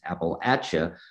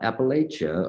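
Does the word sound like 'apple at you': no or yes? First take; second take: Yes; No. First: The word sounds like 'apple at you'. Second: The word does not sound like 'apple at you'. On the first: The speaker calls it right. "it's Appalachia. ... just imagine an apple flying at you" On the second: The speaker calls it wrong. "It's not Appalachia"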